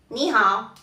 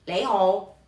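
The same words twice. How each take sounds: First: "ni hao" with n and open ao; Mandarin greeting. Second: "lei hou" with l and rounded ou; Cantonese greeting. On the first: Teacher contrasting Mandarin with Cantonese, careful "ni hao". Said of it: "En mandarín podríamos decir". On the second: Teacher contrasting Cantonese with Mandarin, careful "lei hou". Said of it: "y en cantonés". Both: Shown as a demonstration.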